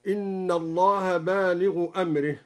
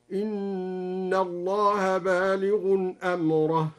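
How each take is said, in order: First: Said in the usual way. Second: Slow chant, "بالغ" with tanween and "أمره" as amrah; tanween recitation. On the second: Shown as a demonstration. Sheikh demonstrates al-Duri's reading, slow chant with tanween on "بالغ". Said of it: "قرأ الدوري بتنوين اسم الفاعل بالغ".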